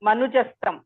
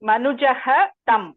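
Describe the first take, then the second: First: The words are joined with an s sound. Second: The first word ends in a breathy h before a break.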